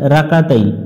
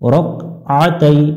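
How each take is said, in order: First: The middle flows smoothly without a throat sound. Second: The middle has a pressed throat sound. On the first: The speaker calls it wrong. "এখানে অনেকজন ভুল করে" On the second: The speaker calls it right. "রক আ গলা চাপতে হবে"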